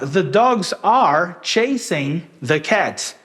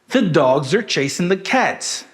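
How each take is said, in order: First: The words are and chasing are said fully. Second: The words are and chasing are reduced and quick. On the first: The speaker calls it wrong. "a gente não falou assim" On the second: The speaker calls it right. "esse are e o chasing, eles foram reduzidos"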